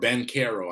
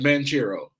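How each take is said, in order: First: The middle consonant is a k sound. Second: The middle consonant is a ch sound. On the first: This is how other people say the name. The speaker calls it wrong. "I hate when they say Bancaro" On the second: This follows how the name is spelled. The speaker calls it right. "His is spelt Banchero. I'm saying Ban- Banchero"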